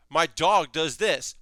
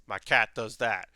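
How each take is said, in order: First: A hint of a cheerful, carefree dog; lightly voiced happy-go-lucky dog, barely changed; light fun dog. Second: A hint of a tough yakuza-style cat, lowered; deep cat voice. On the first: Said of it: "light and fun and having a good time". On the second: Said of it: "a real deep voice".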